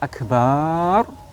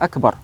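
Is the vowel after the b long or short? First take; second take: long; short. First: The vowel after the b is drawn out. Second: The vowel after the b is short. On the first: The speaker calls it wrong. "jika dibaca akbar lam tasihha takbiratuh" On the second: The speaker calls it right. "tidak boleh memanjangkan ba-nya kata akbar"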